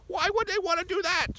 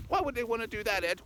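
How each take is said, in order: First: Extremely high, loud squeaky voice; squeaky questioner. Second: High put-on little voice; high-voiced questioner. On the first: Acted. Sidekick pressing Ed for the reason, piercing squeak. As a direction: squeal the question at the very top, loudly. Same question repeated far higher, louder. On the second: Sidekick asking Ed why, high put-on voice. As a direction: ask in a high, squeaky falsetto.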